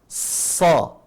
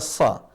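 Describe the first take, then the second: First: The vowel is an a leaning toward o. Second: The vowel is a plain, light a. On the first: The speaker calls it right. "Mengarah ke huruf O. Kayak ada suara O" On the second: The speaker calls it wrong. "tidak dibaca sa"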